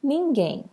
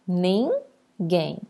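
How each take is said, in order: First: Said in the usual way. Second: "ninguém" in two separate beats, nin, guém; split into syllables. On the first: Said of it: "nem preciso chamar". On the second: Shown as a demonstration. Teacher separating the word for pupils, "ninguém" syllable by syllable. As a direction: pause between the syllables of "ninguém". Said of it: "eu separo".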